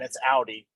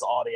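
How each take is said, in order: First: Audi said OW-dee; correct pronunciation. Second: Audi said AW-dee; disliked pronunciation. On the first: Co-host insisting on the proper name, Audi as OW-dee. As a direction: open Audi with OW as in now. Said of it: "Anybody that says Audi". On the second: Co-host quoting a version that annoys them, Audi as AW-dee. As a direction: open Audi with AW as in saw. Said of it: "I just wanna smack 'em". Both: Shown as a demonstration.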